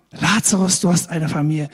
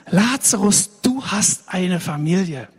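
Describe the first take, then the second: First: Said in the usual way. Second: Slow, weighty stress on "du hast eine Familie"; emphatic proclamation. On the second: Shown as a demonstration. Preacher announces good news to Lazarus, emphatic and slow.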